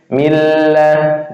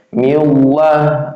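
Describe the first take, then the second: First: The l sound is light and thin. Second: The l sound is heavy and thick. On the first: The speaker calls it right. "dibaca tarqiq tipis" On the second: The speaker calls it wrong. "Nggak boleh dibacanya tafkhim tebal"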